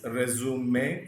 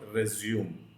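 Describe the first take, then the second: First: It has the noun pronunciation of the word. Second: It has the verb pronunciation of the word. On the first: It names the document you send to employers. The speaker calls it right. "It is resume" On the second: It means to start again. The speaker calls it wrong. "and not resume"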